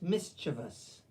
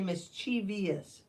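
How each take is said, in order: First: It ends with a short 'vus' sound. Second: It ends with an extra 'vee-us' sound. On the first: The speaker calls it right. "It's mischievous. ... there is no vias in there" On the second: The speaker calls it wrong. "Lots of people say mischievous, but it's not"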